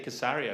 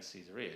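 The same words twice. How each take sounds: First: It is pronounced the way Israelis say it. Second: It is pronounced the way English speakers say it. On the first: "they'd say Caesarea" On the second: "we're sort of saying Caesarea"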